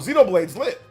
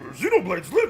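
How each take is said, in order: First: It is said in a normal speaking voice. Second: It is said in a gruff monster character voice. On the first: Nobody pays attention to it. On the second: Everyone takes it seriously.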